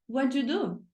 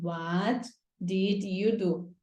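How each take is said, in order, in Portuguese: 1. A palavra 'did' se funde com 'you' e some. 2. Todas as palavras, inclusive 'did', são ditas por completo. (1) "a vida real não te prepara, né, pro what you do?" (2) "se você escrever certinho a estrutura na prova"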